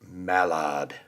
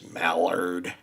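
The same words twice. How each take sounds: First: It is said in a posh, upper-class accent. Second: It is said in a relaxed American accent. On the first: "I like how that sounds better" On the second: "I say it with my lazy American English"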